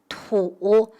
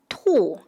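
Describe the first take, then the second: First: It is said on a low dipping tone. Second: It is said on a sharply falling tone. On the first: Someone spits on purpose. "When it's an active action, ... it's pronounced as tu, the third tone" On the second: Something comes out without control. "When it's a passive action, ... it's pronounced as 吐, the fourth tone"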